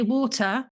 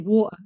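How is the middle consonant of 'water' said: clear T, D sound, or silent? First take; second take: clear T; silent. First: The middle T is pronounced clearly. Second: The middle T is left out entirely. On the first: "we in England like to pronounce our T's" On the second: "we forget there's even a letter there"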